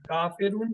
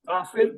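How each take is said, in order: First: The word ends with a pronounced 'un' sound. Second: The word ends without any 'un' sound. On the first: "जब उन पे शद लगी हो तो फिर शद को प्रोनाउंस किया जाता है" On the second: "भी सही है, गलत नहीं है"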